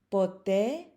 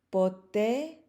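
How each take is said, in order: The two takes are said the same way.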